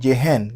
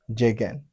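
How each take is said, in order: First: The middle consonant is a breathy h sound. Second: The middle consonant is a hard g sound. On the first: The speaker calls it wrong. "G a prononcé comme H" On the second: The speaker calls it right. "Même son"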